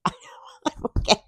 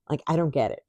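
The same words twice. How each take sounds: First: I don't get it through breathy laughter; giggling disbelief; laughing. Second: Said in the usual way. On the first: Real, not acted. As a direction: laugh it out helplessly. Repeated with laugh.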